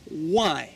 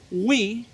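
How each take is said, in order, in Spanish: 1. La palabra suena como 'why'. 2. La palabra suena como 'we'. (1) "You have to say, tú tienes que decir, why" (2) "it is not we"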